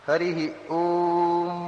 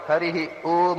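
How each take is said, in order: First: The final m is a long, musical hum. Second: The final m is a short, plain consonant. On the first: The speaker calls it right. "ಇದು ಮಕಾರ, ಗಾನ" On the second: The speaker calls it wrong. "ಹಾಗೆ ಹೇಳಿದ್ರೆ ಇವರಿಗೆ ಓಂಕಾರ ಹೇಳಲಿಕ್ಕೆ ಬರುವುದಿಲ್ಲ ಅಂತೇವೆ"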